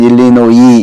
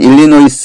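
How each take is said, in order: First: The word ends without any s sound. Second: The word ends with an audible s sound. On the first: "발음할 때는 일리노이 이렇게 발음합니다" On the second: "쓸 때는 일리노이스 이렇게 쓰고"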